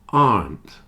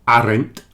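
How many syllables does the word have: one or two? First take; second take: one; two. First: The word is said as one syllable. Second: The word is said as two syllables. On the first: The speaker calls it right. "only has one syllable" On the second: The speaker calls it wrong. "not aren't"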